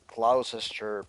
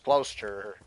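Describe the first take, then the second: First: All the written syllables are pronounced in full. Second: The middle syllable is dropped from the word. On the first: "weirdly removed in the middle" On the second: "becomes Gloucester"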